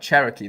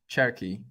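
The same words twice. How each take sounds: First: An O vowel is heard between R and K. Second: No O vowel is heard between R and K. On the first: "if I say it that way. There's kind of an O there"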